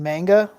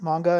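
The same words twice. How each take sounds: First: It is pronounced the way English speakers say it. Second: It is pronounced the way Japanese speakers say it. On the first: "You mean manga?" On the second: "I pronounce it like they do in Japanese"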